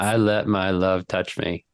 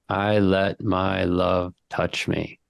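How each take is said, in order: First: It is said at a normal pace. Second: It is said slowly and deliberately.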